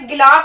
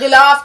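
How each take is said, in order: First: It starts with a plain hard g sound. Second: It starts with a rough sound from the throat. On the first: The speaker calls it wrong. "गिलाफ ना कह करके" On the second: The speaker calls it right. "थोड़ा सा हलक से आवाज निकालिए"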